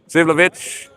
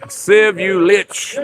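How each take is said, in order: First: The name ends with a "vich" sound. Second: The name ends with a "lich" sound. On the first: The speaker calls it wrong. "I know I'm pronouncing this" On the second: The speaker calls it right. "not Vitch, Lich"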